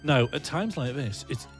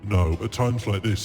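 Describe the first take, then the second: First: It is said in a normal voice. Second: It is said in a deeper voice.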